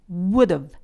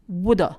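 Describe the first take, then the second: First: It is said with a short v sound at the end. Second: It is said quickly, ending in an uh vowel. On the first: "would have를 contraction해서" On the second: "빨리 발음하게 되면 … a를 would와 붙여서 발음하시면 됩니다"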